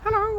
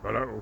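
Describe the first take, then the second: First: It is said in a high-pitched voice. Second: It is said in a low-pitched voice. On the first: "High voice" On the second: "or low voice"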